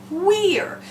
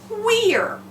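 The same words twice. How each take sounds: No difference in how they are said.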